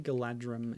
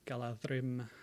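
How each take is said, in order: First: The middle consonant is a plain D sound. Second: The middle consonant is a soft TH sound. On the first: This is how it is said in the film. The speaker calls it wrong. "they say Galadrim in the film" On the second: This is how the name is intended to be said. The speaker calls it right. "pronounced as a soft T H, as in then"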